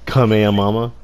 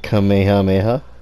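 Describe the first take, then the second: First: The word ends with the syllables 'mama'. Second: The word ends with the syllables 'meha'.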